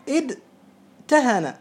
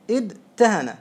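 First: ادتهن drawn out very slowly, each sound separated: اد-ت-هن; slow demo of the original form. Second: Said in the usual way. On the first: Shown as a demonstration. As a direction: spell out ادتهن slowly so every letter is heard, the تاء clear. (نطق بطيء جدا لكلمة ادتهن مع إظهار التاء) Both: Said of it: "هذا الأصل".

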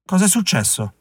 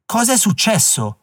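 First: Said in the usual way. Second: Higher and slower, pressing for an answer; a stranger demanding an answer a second time; insistent repeat. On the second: A narrator's reading. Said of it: "ripeté Philip".

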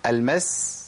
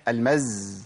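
First: المس ending in a hissing, unvoiced s; flowing breath. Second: المز ending in a buzzing voiced z; blocked breath. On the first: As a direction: let the breath run on the س of المس. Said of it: "مشيت نفس". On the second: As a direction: hold back the breath on the ز of المز. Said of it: "منعت النفس". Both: Shown as a demonstration.

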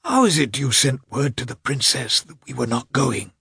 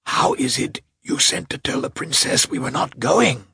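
First: High, strained irritable half-whisper; irritated, with the voice failing. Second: High, strained hoarse whisper, voice giving out; angry hoarse whisper. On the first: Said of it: "in an irritable whisper, his voice failing him". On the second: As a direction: hiss it angrily in a failing whisper. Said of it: "whispered hoarsely and still more angrily". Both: Acted.

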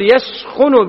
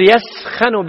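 First: "يسخن" said yaskhunu, rounded u on the kh; "يسخن" ending in -khun; بضم الخاء; yaskhun, damma. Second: "يسخن" said yaskhanu, open a on the kh; "يسخن" ending in -khan; بفتح الخاء; yaskhan, fatha. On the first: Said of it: "بضم الخاء". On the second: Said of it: "بفتح الخاء". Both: Shown as a demonstration.

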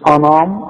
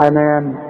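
First: انام with a dark, back NAA; wrong heavy noon. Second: انام with a thin, fronted NAA; light noon. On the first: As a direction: thicken the ن of انام. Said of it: "مش انام". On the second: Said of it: "كل نون في القرآن نا". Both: Shown as a demonstration.

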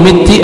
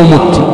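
First: مت said "mitti"; "mitti", i after the mim of مت; kasra on the mim. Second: مت said "mutti"; "mutti", u after the mim of مت; damma on the mim. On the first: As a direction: say مت with a short i. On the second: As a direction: say مت with a short u. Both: Shown as a demonstration. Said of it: "بالكسر وبالضم".

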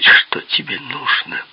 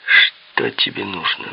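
First: Whispery mimicry of a hissing voice; mock hissing imitation. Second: Higher, slow, thin hiss. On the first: Visitor mimics Peppi's question back, hissing. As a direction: quote him back in a mocking hiss. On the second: A narrator's reading. Peppi asks the visitor what he wants, hissing. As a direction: draw it out in a thin, hissing character voice. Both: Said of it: "шипящий голос".

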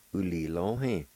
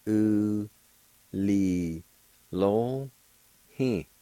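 First: "U, li, lo, hen" run together as one word; joined-up pronunciation. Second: "U... li... lo... he" with a clear pause after each syllable. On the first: Teacher showing learners the word for eloquent, "U, li, lo, hen" joined up. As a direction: say "U, li, lo, hen" without breaks. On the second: Teacher showing learners the word for eloquent, "U, li, lo, he" syllable by syllable. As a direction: sound out "U, li, lo, he" piece by piece. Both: Shown as a demonstration. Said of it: "It's pronounced like this".

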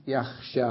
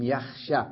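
First: يخشى with the final alif drawn out long; long final vowel. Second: يخشى cut to a short final "a", alif dropped; short final vowel. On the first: Teacher giving the full present-tense verb, long final vowel on يخشى. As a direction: hold the last "aa" of يخشى. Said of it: "أين الألف؟". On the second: Teacher showing the jussive after lam, short final vowel on يخشى. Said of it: "أين الألف؟ حذفت". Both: Shown as a demonstration.

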